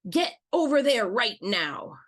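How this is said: The tone is very harsh and stern. "let's say it in a red tone of voice"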